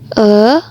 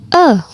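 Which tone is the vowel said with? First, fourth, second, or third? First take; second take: second; fourth. First: The vowel carries the second tone. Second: The vowel carries the fourth tone. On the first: "nada kedua" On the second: "nada keempat"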